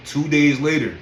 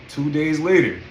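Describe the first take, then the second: No difference in how they are said.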